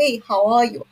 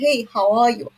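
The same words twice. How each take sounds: First: It is spoken in a British accent. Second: It is spoken in a British accent.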